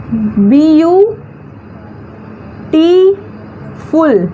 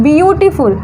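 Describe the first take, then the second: First: "बी यू टी फुल" in separate stretched chunks, long pauses between; syllable by syllable. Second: Said in the usual way. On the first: Shown as a demonstration. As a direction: break "बी यू ... टी ... फुल" apart for learners. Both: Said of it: "तो इसका pronunciation देखिए".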